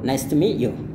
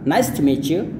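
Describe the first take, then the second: First: The t before 'you' is dropped entirely. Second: The t and y blend into a ch sound. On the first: "atau nice to meet you" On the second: "bisa nice to meet you"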